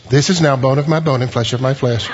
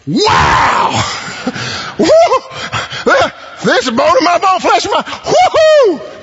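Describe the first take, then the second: First: Flat solemn reading. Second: Ecstatic Adam. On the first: Shown as a demonstration. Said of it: "I don't think he looks and says". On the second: Acted. Preacher acting Adam seeing Eve for the first time, whooping with delight. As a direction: shout it out like a man overjoyed. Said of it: "I think it's something like".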